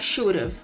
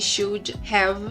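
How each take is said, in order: First: Have is shortened to a v sound. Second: The word have is pronounced in full. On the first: "para should have" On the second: "contrair esse should have"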